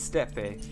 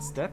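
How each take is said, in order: First: The final E is sounded, giving two syllables. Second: The final E is silent, giving one syllable. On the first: The speaker calls it right. "It's steppe, not step? what's with the E if it's not steppe?" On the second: The speaker calls it wrong. "not step?"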